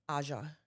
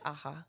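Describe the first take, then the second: First: The name is said with English sounds. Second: The name is said with Spanish sounds.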